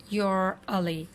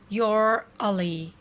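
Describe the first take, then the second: First: It is said as one contracted syllable. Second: The same.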